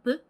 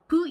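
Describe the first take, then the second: First: The b sound is weak and light. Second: The b sound is strong and clear. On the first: The speaker calls it right. "그냥 b 정도로 발음이 나거든요" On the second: The speaker calls it wrong. "이렇게 명확한 발음이 나지 않고"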